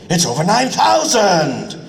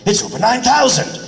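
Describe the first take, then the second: First: A higher, longer "It's over nine thousand"; a longer, drawn-out second take; stretched take. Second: Quick first take. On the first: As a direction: draw out "thousand" to fill more flaps. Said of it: "You're gonna have to stretch it out". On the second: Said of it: "We'll just see the line and go". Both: Shown as a demonstration.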